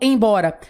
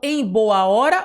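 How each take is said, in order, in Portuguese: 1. É dito fundido em uma só palavra. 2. É dito como três palavras separadas. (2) "eu falo em boa hora"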